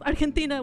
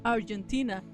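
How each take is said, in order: First: It is said with a Spanish pronunciation. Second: It is said with an English pronunciation.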